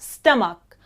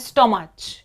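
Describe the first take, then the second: First: The word ends with a k sound. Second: The word ends with a ch sound. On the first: The speaker calls it right. "लेकिन नहीं, ये होगा स्टमक" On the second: The speaker calls it wrong. "गलती से बोल लेते हैं स्टोमच, क्योंकि हम ये सोच लेते हैं कि ये सी और जो एच है इसको च की तरह बोलना चाहिए"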